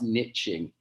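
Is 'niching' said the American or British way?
American. It is said with an American pronunciation. The speaker calls it wrong. "If there's any Americans out there, you're wrong"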